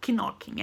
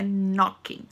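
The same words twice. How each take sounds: First: "knocking" with the K pronounced, like "k-nocking"; wrong K in knocking. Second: "knocking" said as "nocking", K silent. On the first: Teacher showing students the wrong K in "knocking". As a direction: sound the K in "knocking" as a mistake. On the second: Teacher repeating the right silent-K "knocking" for students. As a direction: say "knocking" again with the K dropped, like "nocking". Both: Shown as a demonstration. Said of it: "não pronuncia o K".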